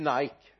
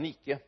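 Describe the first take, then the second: First: The name is pronounced the English way. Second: The name is pronounced the Swedish way. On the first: The speaker calls it wrong. "Inte Nike" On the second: The speaker calls it right. "utan Nike. Ett svenskt företag"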